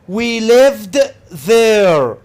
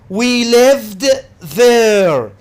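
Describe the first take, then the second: Both takes have the same delivery.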